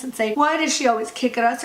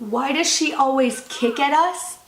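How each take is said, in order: First: Said in the usual way. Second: Put-on slow, rising, disbelieving echo of the kid's line; mocking echo. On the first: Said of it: "who looked at the kid and said". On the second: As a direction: repeat it back slowly as if it can't be real. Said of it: "this dialogue is not real".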